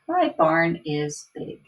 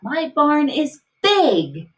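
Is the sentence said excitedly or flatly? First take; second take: flatly; excitedly. First: It is said in a flat, plain way. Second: It is said in an excited way.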